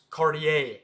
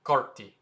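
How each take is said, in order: First: Cartier as car-tee-AY; three-syllable American Cartier; American pronunciation. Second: Carti as KART-ee, two syllables; short Carti, no AY; French pronunciation. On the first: Teacher gives the American way, American pronunciation. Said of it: "the American way to say it". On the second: Teacher gives the French way, French pronunciation. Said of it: "the French pronunciation is just". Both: Shown as a demonstration.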